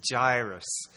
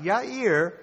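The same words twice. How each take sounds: First: "Jairus" said as JY-russ, the English J sound, slow. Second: "Yair" said as yah-EER with a Y, very slow and stressed; Hebrew Yair. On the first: Preacher giving the English form of the name, slow pronunciation. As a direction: give the English "Jairus", drawn out and falling. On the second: Preacher correcting to the Hebrew name, stressed pronunciation. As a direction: set the Hebrew "Yair" against the English, slow and firm. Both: Shown as a demonstration. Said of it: "that's how it came into our English language".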